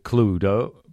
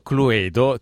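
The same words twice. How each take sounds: First: The name is said with English sounds. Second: The name is said with Italian sounds. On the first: The speaker calls it right. "ma la pronuncia è Cluedo" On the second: The speaker calls it wrong. "innanzitutto Cluedo, ti do una brutta notizia"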